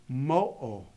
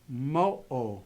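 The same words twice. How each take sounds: The two takes are said the same way.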